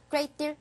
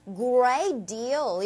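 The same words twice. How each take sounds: First: "great deal" said short and quick; brisk, unstretched "great deal"; too quick. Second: "great deal" with both words lengthened; long, unhurried "great deal"; slightly drawn out. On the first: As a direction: rush through "great deal" without stretching it. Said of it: "너무 빨리 가지 마시고요". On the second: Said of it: "이런 식으로 살짝 길게". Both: Shown as a demonstration.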